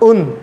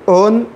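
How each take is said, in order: First: The vowel sounds like a short 'u'. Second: The vowel sounds like a mid 'o'. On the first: The speaker calls it right. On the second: The speaker calls it wrong.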